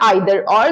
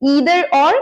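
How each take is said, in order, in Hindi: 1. either का पहला स्वर 'eye' जैसा सुनाई देता है। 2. either का पहला स्वर 'ee' जैसा सुनाई देता है। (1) "आइदर और भी बोला जाता है" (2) "मैं ईदर और ज्यादा बोलती हूँ"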